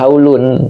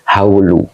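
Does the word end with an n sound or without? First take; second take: with n; without n. First: The word ends with an added n sound. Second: The word ends on a vowel without n. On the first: The word is cut off from what follows. The speaker calls it wrong. "kalau dibaca haulun putus" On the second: The word can attach to the following noun. The speaker calls it right. "bacanya haulu"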